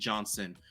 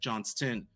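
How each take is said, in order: First: The name is said without a T sound. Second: The name is said with a T sound. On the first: The speaker calls it wrong. "I keep saying Johnson" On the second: The speaker calls it right. "putting that T sound in there"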